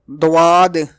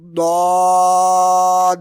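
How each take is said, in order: First: The first consonant has a w after it. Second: The first consonant is thick, from the tongue's side. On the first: The speaker calls it wrong. "Some people pronounce it like Dad or Dwad, which is wrong" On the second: The speaker calls it right. "pronounce thickly from the side of the tongue like Dod"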